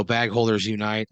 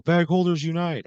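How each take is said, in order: First: Understated rallying cry; a restrained retold yell; mild mock yell. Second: High-pitched rallying cry; raised, rousing battle cry; group yell. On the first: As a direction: repeat the battle cry, only lightly raised. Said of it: "You yell". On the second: Acted. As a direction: yell it like a whole band answering. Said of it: "and they all yell".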